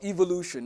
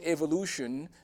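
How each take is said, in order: First: It is said in a British accent. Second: It is said in an American accent.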